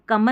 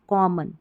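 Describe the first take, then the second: First: The first syllable sounds like 'kum'. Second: The first syllable sounds like 'kom'. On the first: The speaker calls it wrong. "कमन नहीं" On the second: The speaker calls it right. "हम कॉमन पढ़ेंगे"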